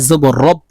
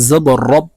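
The two takes are said the same way.

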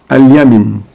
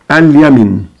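No difference in how they are said.

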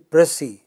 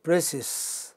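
First: The word ends without any 's' sound. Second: The word ends with an audible 's' sound. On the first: The speaker calls it right. "It is actually precis without the final, you know, without the s" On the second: The speaker calls it wrong. "It is not precis. That is an incorrect pronunciation"

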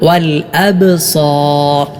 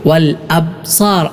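First: The b is said with an echoing bounce. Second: The b is said without an echoing bounce. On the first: The speaker calls it right. "ചലനശബ്ദം എന്ന ആ ഒരു അവസ്ഥ നൽകിക്കൊണ്ടാണ് ഉച്ചരിക്കേണ്ടത്" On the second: The speaker calls it wrong. "പലരും വൽ അബ്സാർ എന്നാണ് ഓതാറുള്ളത്. അത് ശരിയായ രൂപത്തിലുള്ള പാരായണമല്ല"

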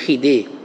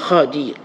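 First: The name is said as Khidir. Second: The name is said as Khadir. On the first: This is a common local way of saying the name. The speaker calls it wrong. "orang Melayu kita panggil Khaidi atau Khidir, ada panggil Nabi Khidir" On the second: This is the original form of the name. The speaker calls it right. "yang betulnya ialah Khadir"

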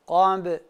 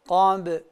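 First: The b sound is light and thin. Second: The b sound is light and thin.

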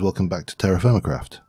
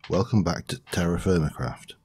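First: It is said quickly, words running together. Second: It is said slowly and carefully.

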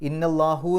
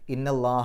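First: The word ends in an 'u' sound. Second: The word ends in an 'a' sound. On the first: The speaker calls it wrong. "ഇന്നല്ലാഹു എന്ന് പറയില്ല" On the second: The speaker calls it right. "ഇന്നല്ലാഹ എന്നാണ് പറയുക"

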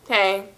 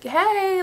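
First: It is said dry and unfriendly. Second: It is said friendly and warm.

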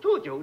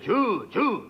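First: The squeak is said in a high voice. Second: The squeak is said in a low voice. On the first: A child mouse is squeaking. "子供のネズミは高い声で" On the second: An adult mouse is squeaking. "大人のネズミは低音で"

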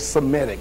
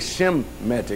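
First: The word begins with an s sound. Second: The word begins with an sh sound. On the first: "I don't say Semitic" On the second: "Notice I say Shemitic"

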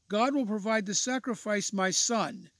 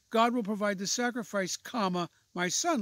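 First: "My son" runs on without a break. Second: There is a break before "my son".

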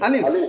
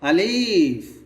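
First: The word is said short and quick. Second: The vowel is drawn out long. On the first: The speaker calls it right. "আলিফ তাড়াতাড়ি হবে" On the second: The speaker calls it wrong. "আলিফটা কেন জানি লম্বা হয়ে যায়"

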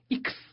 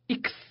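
No difference in how they are said.

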